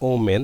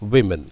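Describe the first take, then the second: First: The first syllable sounds like 'oh'. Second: The first syllable sounds like 'wi'. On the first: The speaker calls it wrong. "Don't say oh men" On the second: The speaker calls it right. "it's women"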